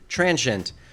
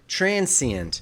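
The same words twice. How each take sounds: First: The word is said with two syllables. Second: The word is said with three syllables. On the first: The speaker calls it right. "I recommend transient with two syllables" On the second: The speaker calls it wrong. "these three syllable variants"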